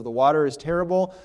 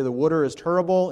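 First: Said in the usual way. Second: Northeast US accent on "water" and "terrible"; imitated Northeast regional pronunciation. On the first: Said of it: "instead of the water is terrible". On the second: Shown as a demonstration. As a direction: say "water" as "wooter" and "terrible" as "turrible", Northeast style. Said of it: "we can tell someone's from the Northeast".

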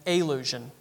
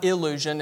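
First: "allusion" with a soft uh at the start, uh-LU-sion; the right word, "allusion" beginning with a schwa; corrected word, allusion. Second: "illusion" with a clear short i at the start, il-LU-sion; the mistaken word, "illusion" starting with i; wrong word, illusion. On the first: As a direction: say "allusion", opening on a neutral uh. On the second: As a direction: say "illusion", opening on the i of "ill". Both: Shown as a demonstration. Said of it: "Sorry for my southern accent".

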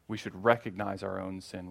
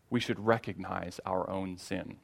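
First: Recognize leaned on, the rest soft and settled; stress on recognize. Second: Said in the usual way. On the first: Shown as a demonstration. Pastor repeating to his church, stress on recognize. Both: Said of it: "repeated for emphasis".

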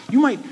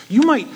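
Both takes have the same delivery.

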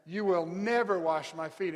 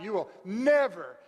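First: "never" leaned on, firm and a bit louder; stress on never. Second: Loud, higher shout on "never". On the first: Shown as a demonstration. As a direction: push the word "never" like a refusal. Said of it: "that word never, major emphasis". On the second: Retold or imitated. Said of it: "Peter shouting".

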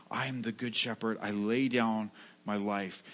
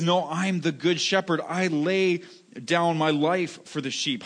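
First: Hushed, heartfelt vow; sincere. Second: Said in the usual way. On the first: Shown as a demonstration. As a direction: say it gently, as a promise from the heart. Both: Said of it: "Jesus says this with all sincerity".

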